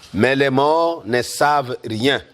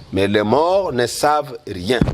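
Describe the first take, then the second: No difference in how they are said.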